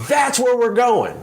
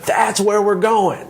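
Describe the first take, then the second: First: Much higher, slow call from the treetop; mock scream down. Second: Much higher, slow call, said once more; repeated mock scream. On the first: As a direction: call it down like a leader shouting from a tall tree. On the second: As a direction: shout it down again from the treetop, drawn out. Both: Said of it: "he screams down to the ground".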